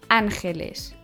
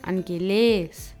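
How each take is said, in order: First: The stress is on the first syllable. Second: The stress is on the last syllable. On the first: The speaker calls it right. "Diese werden auf der ersten Silbe betont" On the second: The speaker calls it wrong. "oder angeles"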